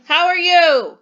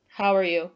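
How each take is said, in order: First: Loud, high yell with strong emotion. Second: Said in the usual way. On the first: Shown as a demonstration. Teacher showing pupils a sentence with strong emotion, yelling. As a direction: shout it out, pitched way up. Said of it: "Am I yelling it or using strong emotion?". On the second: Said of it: "Am I making a general statement?".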